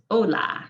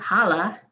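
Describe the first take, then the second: First: "hola" starting straight on the o, no h at all; silent h. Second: "hala" with a breathy English h at the start; wrong spoken h. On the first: Teacher giving learners the right way, silent h. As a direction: drop the h in "hola", slowly. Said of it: "Now the H is silent". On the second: Teacher showing learners the mistake, a sounded h. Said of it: "It's not hala". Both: Shown as a demonstration.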